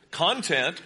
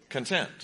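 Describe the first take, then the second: First: "Content" slow, with the weight on CON; stress on first syllable. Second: "content" with a short first syllable and stressed TENT; stress on second syllable. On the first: Preacher demonstrates syllable emphasis to congregation, CON stressed. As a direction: say "Content" as CON-tent, the noun. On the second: Preacher demonstrates syllable emphasis to congregation, TENT stressed. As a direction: say "content" as con-TENT, meaning satisfied. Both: Shown as a demonstration. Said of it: "It depends where you emphasize the syllable".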